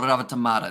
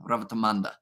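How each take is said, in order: First: The name is said without an N sound. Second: The name is said with an N sound.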